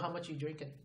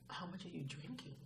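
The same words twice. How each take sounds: First: The question sounds blunt, cold and accusatory. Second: The question sounds gentle, caring and concerned. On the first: The asker is judging the listener. The speaker calls it wrong. "It's not so" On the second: The asker cares about the listener. The speaker calls it right. "It's this empathy and concern"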